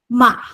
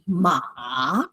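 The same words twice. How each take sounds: First: The pitch drops suddenly from high, briefly. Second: The pitch dips down then rises again. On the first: "It's very short. It goes from the first tone position suddenly down" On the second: "Third tone is basically uh, a, a, a V"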